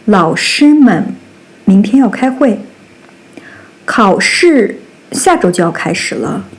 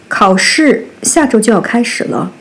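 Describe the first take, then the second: First: Unvoiced whisper of the sentence; whispered example. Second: Said in the usual way. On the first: Shown as a demonstration. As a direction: breathe it out without voice. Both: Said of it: "demo sentence read two ways".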